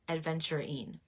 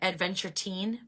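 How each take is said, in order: First: The word ends with a 'rin' sound. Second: The word ends with a 'teen' sound. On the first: The speaker calls it right. "It's adventurine" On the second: The speaker calls it wrong. "I was pronouncing it wrong. I used to say"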